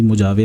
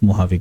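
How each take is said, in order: First: The middle consonant is a J sound. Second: The middle consonant is an H sound. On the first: This is how the spelling reads. The speaker calls it wrong. "ये spelling इसकी मुजावे रहती है" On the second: This is how the name is actually pronounced. The speaker calls it right. "But इसको pronounce मोहावे किया जाता है"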